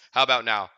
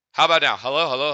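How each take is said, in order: First: Said in the usual way. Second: Louder mic test voice. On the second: Shown as a demonstration. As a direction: push the volume up for the mic check. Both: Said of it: "This is my regular speaking voice".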